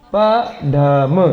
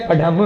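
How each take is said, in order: First: पढ़म drawn out slowly as प, ढ, म; syllable by syllable. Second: Said in the usual way. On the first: Shown as a demonstration. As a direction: sound out पढ़म in three separate, stretched syllables. Syllables sounded out for students. (पढ़म को धीरे-धीरे अक्षर तोड़कर)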